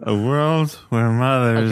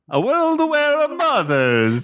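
First: It is spoken in a drunk voice. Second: It is spoken with an Italian accent.

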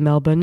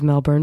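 First: It is pronounced the way Australians say it. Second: It is pronounced in a non-Australian way. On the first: The speaker calls it right. "I must pronounce it as the Australians do" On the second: The speaker calls it wrong. "instead of Melbourne"

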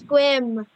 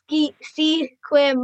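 First: The name is said with one syllable. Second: The name is said with two syllables. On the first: The speaker calls it right. "but it's Squim" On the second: The speaker calls it wrong. "A lot of people pronounce it Sequim"

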